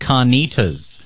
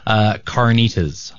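First: The word is said in a non-American accent. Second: The word is said in an American accent.

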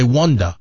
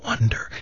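First: The word is said with a British accent. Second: The word is said with an American accent. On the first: "You say wonder" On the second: "When you whispered it, you said, I wonder"

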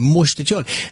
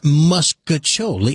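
First: The first syllable sounds like 'most'. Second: The first syllable sounds like 'mus'. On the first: The speaker calls it right. "It's most, M-O-S-T" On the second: The speaker calls it wrong. "It's not muscaccioli"

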